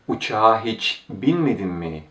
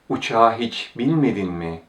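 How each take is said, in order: The two takes are said the same way.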